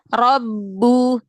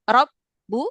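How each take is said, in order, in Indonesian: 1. Kata ini mengalir tanpa jeda di antara suku katanya. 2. Kata ini berhenti sebentar di antara dua suku katanya. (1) "Jangan berhenti" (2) "Jadi bukan rob bu"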